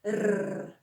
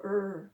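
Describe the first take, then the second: First: Long trilled "R"; "R" as a sustained trill; rolled R. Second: "R" as a drawn-out English "rrr", no trill; emphasised plain "R", stretched; unrolled R. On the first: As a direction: roll the "R" on the tongue tip. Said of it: "Two R's". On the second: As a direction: hold "R" without rolling it. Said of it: "Just go". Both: Shown as a demonstration.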